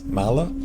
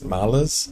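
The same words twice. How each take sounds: First: "mala" with no s at the end; final S dropped. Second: "malas" with the final s sounded; final S pronounced. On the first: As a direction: say plural malas as "mala", dropping the s. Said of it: "we kind of drop the S". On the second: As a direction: say Portuguese "malas" ending on the s. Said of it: "we don't say the S". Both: Shown as a demonstration.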